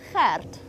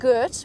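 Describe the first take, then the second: First: It starts with a throaty G and rolled R. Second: It starts with a hard English G sound. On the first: The speaker calls it right. "it's Gert. And you have to roll your R slightly" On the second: The speaker calls it wrong. "So it's not Gert"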